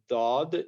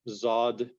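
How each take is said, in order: First: It begins with an emphatic d sound. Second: It begins with a z sound. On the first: The speaker calls it right. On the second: The speaker calls it wrong.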